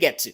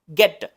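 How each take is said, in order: First: The T is crisp, in a British accent. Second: The T is softer, in an American accent. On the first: "Un británico diría" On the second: "el norteamericano dice, la T se pronuncia más suave"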